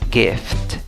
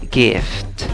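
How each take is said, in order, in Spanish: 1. El primer sonido es una g fuerte. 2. El primer sonido es una g fuerte.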